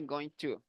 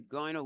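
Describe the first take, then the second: First: Both words are said fully and separately. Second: The words blend into one reduced form, gonna. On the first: The speaker calls it wrong. "Don't say going to" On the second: The speaker calls it right. "Just say going to wear"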